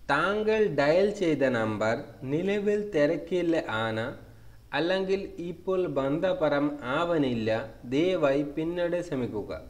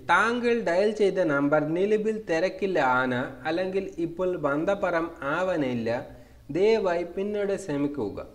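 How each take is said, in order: First: It is said at a slow pace. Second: It is said at a fast pace.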